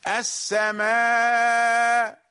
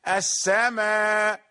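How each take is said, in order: First: The final long vowel is stretched out long. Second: The final long vowel is kept short. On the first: "ست حركات وأربع حركات" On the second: "بحركتين"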